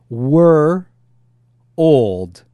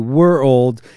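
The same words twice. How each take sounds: First: The two words are said slowly and apart. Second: The two words are said quickly and run together.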